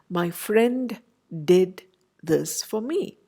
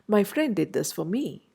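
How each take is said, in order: First: Each word is separate, with the d of friend pronounced. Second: Friend and did blend together, dropping the d of friend. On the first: The speaker calls it wrong. "we would hardly say" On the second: The speaker calls it right. "compress friend and did and together make it sound as one word"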